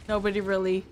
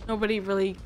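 No difference in how they are said.

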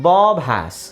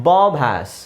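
The two takes are said the same way.

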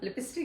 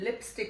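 First: The word is not said as clean lip-stick. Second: The word is said cleanly as lip plus stick. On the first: The speaker calls it wrong. "ਲਿਪਸਟਿਕ ਨਹੀਂ ਹੁੰਦੀ" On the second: The speaker calls it right. "ਲਿਪਸਟਿਕ ਹੁੰਦੀ ਆ ਇਹ"

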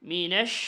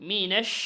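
The two takes are said the same way.

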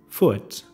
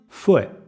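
First: The final T is fully released. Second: The final T is stopped without release. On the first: "Se puede pronunciar normal" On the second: "la mayor parte de los de madrelengua dicen fue"

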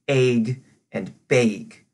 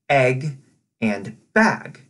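First: The vowels are strongly raised, high in the mouth. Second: The vowels sound plain and not raised.

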